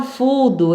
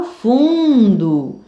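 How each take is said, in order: First: Fudo with an oral u; wrong oral vowel. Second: Slow fundo with a nasal un; nasal vowel. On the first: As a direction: say fudo without any nasal sound. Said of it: "Eu não falo". (fudo sem som nasal) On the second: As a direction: stretch the un of fundo through the nose. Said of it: "Som nasal". (fundo com som nasal) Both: Shown as a demonstration.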